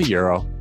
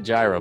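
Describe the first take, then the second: First: It is pronounced to sound like 'euro'. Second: It is pronounced the way it is spelled. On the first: The speaker calls it right. "But it's a euro" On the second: The speaker calls it wrong. "it's spelled gyro. And a lot of people are like, oh, yeah, I'm going to go get a gyro"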